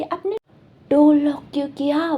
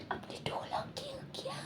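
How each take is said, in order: First: A half-hearted yell, a bit louder; mock shout. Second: Breathy secret whisper, all air. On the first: Boy repeats the question into the tutor's ear, in a mild mock yell. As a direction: yell it into his ear, not full force. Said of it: "चिल्ला के उसके कान में बोलते". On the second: Acted. Boy asks tutor why he locked the door, whispering. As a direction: hush it so only he hears. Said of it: "धीरे से बोला था".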